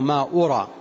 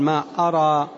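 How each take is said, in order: First: The hamza is followed by a 'u' vowel. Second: The hamza is followed by an 'a' vowel. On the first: I do not think. "ويجوز ضمها بمعنى لا أظن" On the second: I do not know. "يجوز فتح الهمزة بمعنى لا أعلم"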